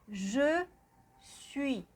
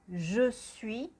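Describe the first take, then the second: First: The phrase is said slowly and carefully. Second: The phrase is said quickly in a list.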